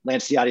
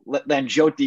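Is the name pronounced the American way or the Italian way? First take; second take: American; Italian. First: The name is pronounced the Americanized way. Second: The name is pronounced the traditional Italian way. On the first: This is how the name is said in America. "is the Americanized version" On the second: This is how the name is said in Italy. "is the traditional Italian way"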